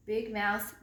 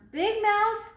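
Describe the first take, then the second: First: Said in the usual way. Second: Higher, much louder second call. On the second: Acted. Little mouse calling loudly to snoring Big Mouse. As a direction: call out to wake him. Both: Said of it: "he called".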